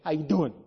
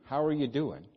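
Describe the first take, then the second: First: It is said in a New York accent. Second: It is said in a plain, sincere accent. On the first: It is a casual greeting. "if I was living in New York City, I wouldn't say it that way. I'd say" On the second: The question is sincerely meant. "I mean that"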